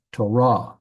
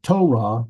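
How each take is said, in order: First: "Torah" as to-RAH, slow, final syllable stressed; last-syllable stress. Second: "Torah" as TO-rah, first syllable punched; wrong first-syllable stress. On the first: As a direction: land on the rah at the end of "Torah". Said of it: "The emphasis is on the last syllable". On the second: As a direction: hit the start of "Torah", let the rah drop. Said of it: "it's not Torah". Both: Shown as a demonstration.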